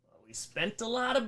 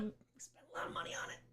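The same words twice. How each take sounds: First: Said in the usual way. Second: Unvoiced whispered aside. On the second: Real, not acted. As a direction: whisper it like a guilty secret. Whispered repeat of previous line.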